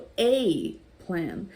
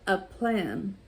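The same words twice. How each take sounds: First: The article sounds like the letter name 'ay'. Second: The article is a short weak 'uh' sound.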